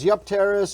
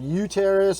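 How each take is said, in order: First: The P sound is pronounced in the word. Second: The P sound is left out of the word. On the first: "It's got a P in there" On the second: "I don't know if it's a silent P"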